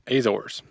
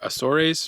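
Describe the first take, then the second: First: The name is said with American English pronunciation. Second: The name is said with Spanish-style pronunciation. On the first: "The American way of saying it is" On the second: "if you took three years of high school Spanish like me, then you say"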